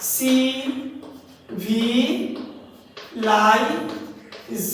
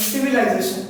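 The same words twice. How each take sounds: First: "সি ভি লাইজেশন" in five separate slow beats; long pauses between সি, ভি, লাই, জে, শন; split into syllables. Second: Said in the usual way. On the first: Shown as a demonstration. Teacher counting syllables for students, "সি ভি লাইজেশন" split slowly. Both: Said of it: "পাঁচটা সিলেবেলে ভাগ করা".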